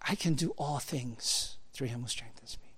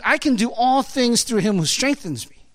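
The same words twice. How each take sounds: First: Much softer, hushed recitation of the verse; softly, like a treasured promise; quiet reverent quote. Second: Said in the usual way. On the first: Shown as a demonstration. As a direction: let the verse drop to near a hush. Verse quoted after build-up. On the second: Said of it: "it says".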